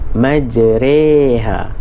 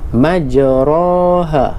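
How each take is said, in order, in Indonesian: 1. Vokal setelah r berada di antara a dan i. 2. Vokal setelah r adalah a terbuka. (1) "Tapi kalau imalah, dia antara kedua-dua" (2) "kita sebut pada bunyi fathah"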